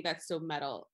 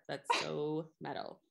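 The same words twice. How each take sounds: First: Flat deadpan delivery; monotone. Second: Slow flat deadpan; monotone. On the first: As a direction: say it with no inflection. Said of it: "in a monotone voice". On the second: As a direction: drag it out with no inflection. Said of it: "I'm gonna continue to say it in a monotone voice". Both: Shown as a demonstration.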